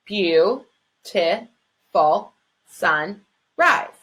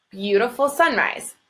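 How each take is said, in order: First: Counting syllables. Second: Said in the usual way. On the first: Shown as a demonstration. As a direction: tap out Beau-ti-ful sunrise one syllable at a time. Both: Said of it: "Let's check that that's five syllables".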